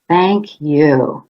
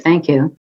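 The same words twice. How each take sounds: First: It sounds warm and deeply sincere. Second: It sounds empty and insincere.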